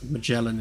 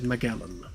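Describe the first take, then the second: First: It is said with the American pronunciation. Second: It is said with the British pronunciation. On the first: "It's pronounced Magellan in the U S" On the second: "is how we pronounce it in the U K"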